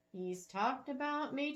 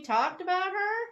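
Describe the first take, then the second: First: Said in the usual way. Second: Louder and higher on "her?"; surprised. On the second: Acted. Bethany stunned she was spoken of, stress on "her". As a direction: stress on "her", rising high and loud. Blinked at the woman's next words.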